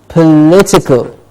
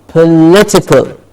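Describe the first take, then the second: No difference in how they are said.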